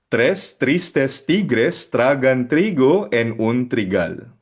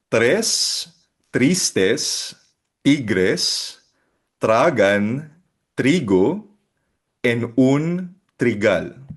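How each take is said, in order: First: It is read at normal, connected speed. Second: It is read slowly, word by word.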